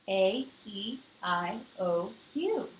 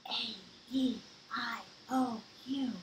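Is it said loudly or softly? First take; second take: loudly; softly. First: It is said louder. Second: It is said at a normal, softer volume.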